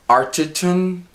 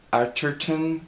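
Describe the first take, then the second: First: Arterton with a light, unstressed middle syllable; first pronunciation guess. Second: Arterton with an r-coloured middle syllable; alternative pronunciation guess. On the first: Reviewer trying an actress's surname, first pronunciation guess. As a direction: say Arterton as "AR-tuh-tun". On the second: Reviewer offering another version of the surname, alternative pronunciation. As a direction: say Arterton as "AR-ter-tun", a little softer. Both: Shown as a demonstration. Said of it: "one of those two".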